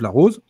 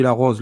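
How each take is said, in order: First: «la rose» with a closed o, like roz, said louder. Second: «la rose» with an open o, like rɔz, standard northern. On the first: Linguist contrasting vowel pronunciations for the host, closed o. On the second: Linguist contrasting vowel pronunciations for the host, open o. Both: Shown as a demonstration. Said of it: "je suis déjà sur un phénomène d'accent".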